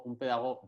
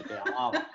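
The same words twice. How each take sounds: First: Said in the usual way. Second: Laughing, mocking pedagoga. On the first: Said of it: "Me ha salido un poco martes". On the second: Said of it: "Me ha salido un poco martes y te dije".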